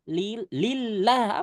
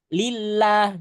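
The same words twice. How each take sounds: First: Lillah recited slowly with a clean, firm double l; corrected take. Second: Lillah recited slowly with a held double l; wrong take. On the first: Teacher gives the right reading after the wrong one. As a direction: say lillah firmly and clearly. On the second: Teacher shows the mistake to avoid, slow and drawn. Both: Shown as a demonstration. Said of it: "Jangan lillah".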